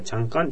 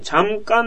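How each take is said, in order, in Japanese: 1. 速く、つなげて言います。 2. ゆっくり丁寧に言います。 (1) "普通、もう早く言うから" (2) "正確には、チャンカーンなんだけど"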